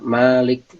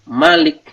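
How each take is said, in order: First: The first vowel is drawn out long. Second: The first vowel is kept short. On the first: "itu bacanya panjang" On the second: "Bacanya pendek"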